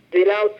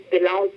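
No difference in how they are said.

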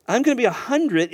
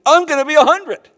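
First: Said in the usual way. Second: Higher and louder, playfully incredulous; mock exasperated outburst. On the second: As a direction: blurt it out as if the numbers can't be real. Abraham doing the math aloud.

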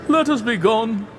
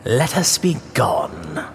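First: Much higher, pleading Let us be gone; begging to leave, voice lifted high; Fortunato pleading. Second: Lower, softer, slow Let us be gone; mock the plea back, coldly and slowly; cold echo. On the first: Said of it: "The voice said". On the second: Montresor echoes coldly. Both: A narrator's reading.

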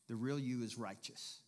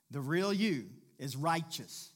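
First: Said in the usual way. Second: Slow, louder, weighty restatement; emphatic repeat. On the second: Shown as a demonstration. Preacher repeating the key point to the church, emphatic. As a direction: drive home REAL YOU and RIGHTEOUS, loud and drawn out. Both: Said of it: "I'm gonna say it again".

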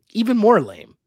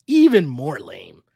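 First: Louder stress on "more lame"; emphatic. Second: "Even more lame" dragged out slowly and louder; slow emphatic repeat. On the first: Co-host mocking the loser's speech, emphatic. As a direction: hit "even more lame" hard and disgusted. Repeating his reaction with emphasis. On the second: Co-host repeating his verdict on Emmanuel, slow and louder. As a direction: stretch every word of "Even more lame" in disgust. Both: Retold or imitated.

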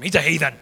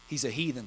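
First: A touch of contempt on heathen; mildly scornful, a bit louder; little contempt. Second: Said in the usual way. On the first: Shown as a demonstration. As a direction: sneer lightly at the heathen. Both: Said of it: "I'll say it like you got a little contempt for him".

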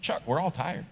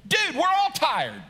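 First: Said nicely. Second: High, exasperated comeback; not nice. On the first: Kirk answering his tired friend Chuck, said nicely. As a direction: let him down kindly and quietly. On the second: Kirk answering the preacher's complaint of tiredness, exasperated. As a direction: fire it back much higher, fed up with the complaint. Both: Acted. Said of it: "even if he says it nicely".

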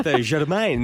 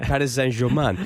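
First: French pronunciation of Germain. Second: Said in the usual way. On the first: Shown as a demonstration. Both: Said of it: "I went with the Germain, not, not like Paris Saint-Germain".

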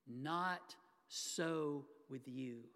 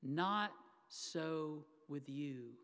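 First: Slow and weighty, each word apart; slow emphatic quote. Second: Very slow, softer, each word set apart; slow it right down and let it sink in; slow repeat to sink in. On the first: Acted. Preacher stressing Jesus's words to the congregation, slow and weighty. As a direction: let each word land slowly. Quoting Jesus, then dwells on it. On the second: Shown as a demonstration. Preacher repeating Jesus's words so they sink in, very slow and soft. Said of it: "let those four words kind of sink in".

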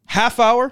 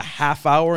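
First: High, rising questioning repeat; incredulous. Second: Said in the usual way. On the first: Real, not acted. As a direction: echo it in disbelief. Repeats the time in disbelief.

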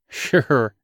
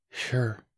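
First: Light amused sure; a little laugh in it; chuckling. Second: Soft, airy whisper; breathless whisper. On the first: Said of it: "he chuckled". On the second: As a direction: barely breathe the word. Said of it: "he whispered breathlessly". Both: A narrator's reading.

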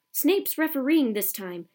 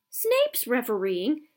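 First: "Snape's refereeing" shouted slowly, higher and louder, falling at the end; "Snape's refereeing this time" as a loud, falling announcement; yelling. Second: "Snape's refereeing?" slow and louder, rising in shock; "Snape's refereeing?" as a slow, astonished, rising question; spluttering disbelief. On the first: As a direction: lean on "Snape's" as a stern warning. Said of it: "he yelled". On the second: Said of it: "he spluttered through a mouthful of mud". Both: A narrator's reading.

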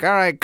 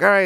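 First: Mock dentist. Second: Said in the usual way. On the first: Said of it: "He's like". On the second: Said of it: "And then he's like".

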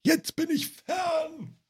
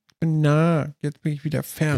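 First: High, slow, drawn-out puppet voice; a hammed-up, stretched-out Grobi call. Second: Grobi voice. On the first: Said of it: "wo der immer so wegläuft". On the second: Retold or imitated. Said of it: "Grobi oder so?".

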